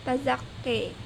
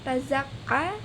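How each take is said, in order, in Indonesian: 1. Vokal akhir condong ke arah "e". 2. Vokal akhir adalah "a" terbuka yang biasa.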